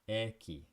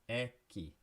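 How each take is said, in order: The two takes are said the same way.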